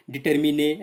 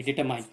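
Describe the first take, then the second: First: डिटरमिने ending in "mi-ne" instead of "mine"; wrongly cut word. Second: Said in the usual way. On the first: Shown as a demonstration. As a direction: say डिटरमिने with the tail of determination, minus "-shun". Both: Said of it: "ऐसा नहीं किया आपने".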